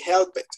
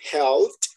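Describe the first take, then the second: First: The ending is said as an extra syllable. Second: The ending is said as a short T sound. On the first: The speaker calls it wrong. "No vayan a decir que help it" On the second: The speaker calls it right. "La pronunciación correcta sería helped, porque termina en P"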